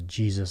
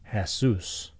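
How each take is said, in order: First: The word begins with a J sound. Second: The word begins with an H sound.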